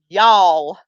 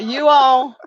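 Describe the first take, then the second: First: The two words are run together as one. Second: The two words are said separately. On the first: This is how people in the South say it. "People in the South actually run it together" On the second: This is how people outside the South say it. "people not in the South say you all"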